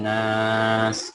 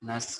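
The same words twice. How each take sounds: First: The vowel is stretched out long. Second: The vowel is said short, without stretching. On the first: The speaker calls it right. "এখানে টান দিতে হবে" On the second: The speaker calls it wrong. "নাস বলা যাবে না"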